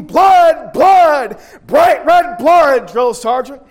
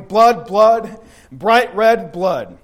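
First: Chanted, high, loud unison yell; chanted, shout it with hundreds of soldiers. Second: Said in the usual way. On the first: Retold or imitated. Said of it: "we'd yell out in unison". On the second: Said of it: "that's the title of my message".

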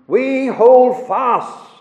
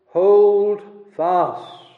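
First: "we hold fast" slow and louder, HOLD hit hard and falling; stress on HOLD. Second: "hold fast" pressed firmly, HOLD weighted and falling; stress on HOLD FAST. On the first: Preacher reading the verse's last words aloud with heavy emphasis on HOLD. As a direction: land on "hold" like a closing hammer blow. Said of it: "it comes at the very end for emphasis". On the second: Preacher stressing the key verb to his congregation, HOLD weighted. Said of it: "the emphasis is on that word". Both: Shown as a demonstration.

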